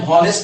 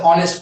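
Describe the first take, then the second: First: "हॉनेस्ट" with a sounded h at the start; wrong pronunciation demo. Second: "ऑनेस्ट" starting straight on the vowel; silent h. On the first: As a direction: say हॉनेस्ट, voicing the initial h. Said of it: "कभी भी हम हॉनेस्ट नहीं पढ़ते". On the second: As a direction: say ऑनेस्ट with no h sound. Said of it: "क्या पढ़ते हैं?". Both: Shown as a demonstration.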